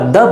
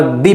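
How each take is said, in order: First: द said short as duh with a schwa; light unstressed द; the as thuh. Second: दी said with a long ee; full long vowel in दी; the as thee. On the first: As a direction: clip द to a quick duh. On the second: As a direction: stretch दी to a clear dee. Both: Shown as a demonstration. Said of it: "दो अलग अलग रूपों में बोलते हैं".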